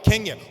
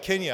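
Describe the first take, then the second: First: The word is said loudly with high energy. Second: The word is said quietly with low energy. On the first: The crowd was excited earlier. "This morning y'all were like Kenya. Woo!" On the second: The crowd is now tired. "Now you're like Kenya. I want to go to sleep"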